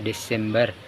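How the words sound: It is said with an Indonesian pronunciation. "dalam bahasa Indonesia"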